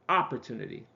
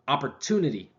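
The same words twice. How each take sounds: First: The stress falls on a different syllable. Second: The stress falls on its normal syllable. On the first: The speaker calls it wrong. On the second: The speaker calls it right.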